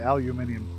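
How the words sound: The word is said the British way. "British say it aluminium"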